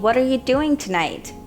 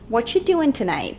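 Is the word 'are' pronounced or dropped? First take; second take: pronounced; dropped. First: Every word is said in full, including 'are'. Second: The word 'are' is left out entirely. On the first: "instead of asking" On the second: "Native speakers will say"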